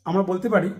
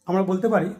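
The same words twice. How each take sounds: Both takes have the same delivery.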